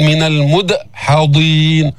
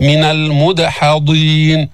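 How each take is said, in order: First: المدحضين broken by a stop after d; wrong hamza after dal. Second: Slow المدحضين with a light bounce on d; qalqala on dal. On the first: Teacher shows the error, المدحضين chopped with a glottal stop. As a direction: say المدحضين as "mud'-hadeen". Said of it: "بس ما تعمل همزة". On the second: Teacher models correct المدحضين, bouncing dal. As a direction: recite المدحضين, echoing d with no break. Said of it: "هنا قلقلنا الدال لأنها سكنت". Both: Shown as a demonstration.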